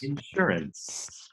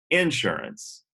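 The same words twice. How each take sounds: First: The stress is on the second syllable. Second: The stress is on the first syllable. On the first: This is how it is said elsewhere. The speaker calls it right. "no, no, no" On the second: This is how it is said in the South. The speaker calls it wrong. "And she said"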